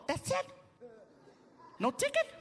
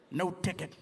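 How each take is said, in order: First: High squeaky disbelief; mock squeak of surprise; astonished. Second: Low, falling confirmation; low matter-of-fact officer voice; calm cop. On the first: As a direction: ask it way up high, incredulous. Himself astonished at no ticket. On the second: Retold or imitated. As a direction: answer as a composed officer, pitched down. Cop confirms, against squeaky question.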